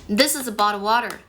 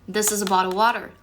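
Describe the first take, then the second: No difference in how they are said.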